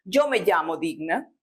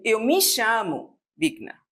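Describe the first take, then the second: First: "Eu me chamo Digna" said in Spanish as "yo me llamo Digna", with a Spanish y and ll; Spanish pronunciation. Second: Said in the usual way. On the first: Shown as a demonstration. Teacher showing how Spanish speakers say it. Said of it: "Como nós dizemos em espanhol". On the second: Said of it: "eles dizem".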